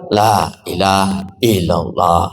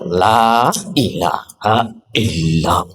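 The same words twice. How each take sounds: First: A sound in the phrase is dropped. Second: A glottal catch is added on the first syllable. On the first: "Hanya hilang. Itu dikurangi" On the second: "La-nya seolah-olah ada hamzahnya"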